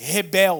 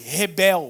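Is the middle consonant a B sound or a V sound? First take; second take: B sound; B sound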